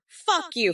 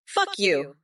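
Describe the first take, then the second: First: Fuck said much higher the second time; a sudden high-pitched "Fuck you"; higher repeat. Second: Said in the usual way. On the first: Shown as a demonstration.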